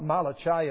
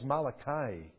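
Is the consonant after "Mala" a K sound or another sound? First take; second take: other sound; K sound. First: The consonant after "Mala" is not a K. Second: The consonant after "Mala" is a K. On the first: The speaker calls it wrong. "It's not Malachi" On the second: The speaker calls it right. "it's Malachi. Because the CH really stands for K"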